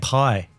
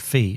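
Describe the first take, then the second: First: The word starts with a P sound. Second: The word starts with an F sound. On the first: The speaker calls it wrong. "I've been saying pi" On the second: The speaker calls it right. "So the it's just F-I"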